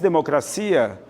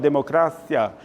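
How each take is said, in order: First: The stress falls on the syllable 'cia'. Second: The stress falls on the syllable 'cra'. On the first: This is the Portuguese pronunciation. "No português, cia" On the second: This is the Spanish pronunciation. "No espanhol, cra é a tônica"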